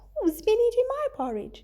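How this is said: The voice is soft and sweet. The speaker is gentle. "said in a sweet voice"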